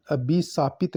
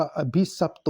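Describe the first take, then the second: First: अभिशापित with long aa and "pit"; wrong form. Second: अभिशप्त ending in short "sapt"; correct form. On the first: Teacher rejecting the wrong form: अभिशापित ending "saapit". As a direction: say "a-bhi-saa-pit" for अभिशापित. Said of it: "नहीं होता". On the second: Teacher giving the right form: अभिशप्त ending "sapt". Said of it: "अभिशप्त शुद्ध है". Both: Shown as a demonstration.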